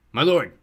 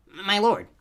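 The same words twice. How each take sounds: First: Loud, raised henchman's voice; servile rooster creature. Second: Much higher, louder servile toad voice; groveling toad. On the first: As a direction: address your dark master loudly. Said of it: "Roosterfoot said". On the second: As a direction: grovel before your master in a high creature voice. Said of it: "the toad said". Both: A narrator's reading.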